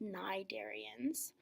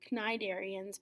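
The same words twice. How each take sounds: First: The word begins with an N sound. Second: The word begins with a hard K sound. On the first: The speaker calls it right. "the C is silent, so it's actually just cnidarians" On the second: The speaker calls it wrong. "it's tempting to call them cnidarians"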